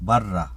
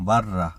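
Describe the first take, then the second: No difference in how they are said.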